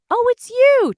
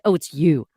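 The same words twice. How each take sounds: First: It sounds positive and pleased. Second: It sounds negative and disappointed. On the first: The caller is welcome. The speaker calls it right. "to make it sound a little bit more positive" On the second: The caller is unwelcome. The speaker calls it wrong. "I didn't mean to be like"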